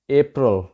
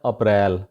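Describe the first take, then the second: First: अप्रैल starting with a long 'ay', short weak ending; correct pronunciation. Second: अप्रैल as uh-PRAIL, weight on the second syllable; local mispronunciation. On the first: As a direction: say अप्रैल as AY-pruhl, stress first. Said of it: "इसको आप ज़रूर सही कर लें". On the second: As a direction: say अप्रैल with a short 'uh' start and open 'rail'. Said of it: "इसको वहाँ पे बोला जाता है". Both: Shown as a demonstration.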